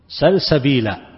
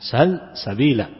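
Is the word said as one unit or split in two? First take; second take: one unit; split. First: The word is said as one unbroken unit. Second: The word is split into two parts. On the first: It is the name of a spring. The speaker calls it right. "وهي الكلمة واحدة" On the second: It means ask for a way leading to it. The speaker calls it wrong. "فيجعلها كلمتين"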